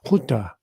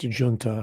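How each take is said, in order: First: It is said with the Spanish pronunciation. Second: It is said with the British pronunciation. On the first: This is how it is said in the Western Hemisphere. "give it the uh, Spanish pronunciation" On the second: This is how it is said in Britain. "in Britain it's pronounced junta"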